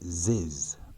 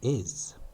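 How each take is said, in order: First: The word begins with a linked z sound. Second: The word begins with a plain vowel sound. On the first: The speaker calls it right. "The easiest way to get this right is to say ziz" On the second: The speaker calls it wrong. "not is"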